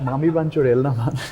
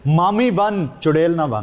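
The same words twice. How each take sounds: First: It is said in an unhinged, crazy manner. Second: It is said in a mock-angry tone.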